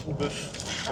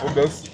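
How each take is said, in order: First: "au bœuf" whispered without voice. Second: "Au bœuf" said loud and firm. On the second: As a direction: punch out "Au bœuf" clearly. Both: Shown as a demonstration.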